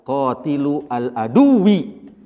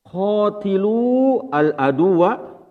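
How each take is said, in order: First: "qatilu al aduwi" read slowly as a noun phrase, ending "-wi"; slow "qatilu al aduwi", final "aduwi" with i. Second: "Qatilu al aduwa" read slowly as a command verb, ending "-wa". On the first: Teacher shows the class the noun reading, slow. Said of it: "berarti kita mengatakannya". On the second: Teacher reads out to the class, slow verb reading. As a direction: stretch "Qatilu al aduwa", final "aduwa" with open a. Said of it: "Kalau Bapak melihat tulisannya begini". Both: Shown as a demonstration.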